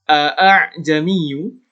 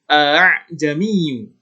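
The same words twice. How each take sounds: First: The second hamza is pronounced clearly and firmly. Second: The second hamza is softened and blurred. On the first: The speaker calls it wrong. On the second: The speaker calls it right. "alif yang kedua itu disamarkan, dilembutkan, tidak ditegaskan"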